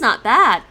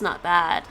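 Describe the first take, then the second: First: It is said in a pleased, approving tone. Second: It is said in a lukewarm, hesitant tone. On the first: It is actually quite good. "That means it's actually quite good to very good" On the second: It is mediocre at best. "it would be more like mediocre at best"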